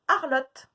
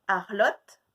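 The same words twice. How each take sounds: First: Loud clipped "Arlotte"; called-out syllable. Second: Said in the usual way. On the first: Shown as a demonstration. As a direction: call out "Arlotte" to the class. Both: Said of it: "de deviner lesquels c'est".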